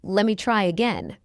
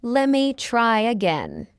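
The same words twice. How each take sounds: First: Quick, linked "Let me try again"; fast English. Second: Slow, drawn-out "Let me try again"; slow model. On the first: Teacher trains learners' ears, fast. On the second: Teacher models the phrase for learners first, slowly. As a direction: stretch each word of "Let me try again". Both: Shown as a demonstration. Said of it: "fast English is not difficult".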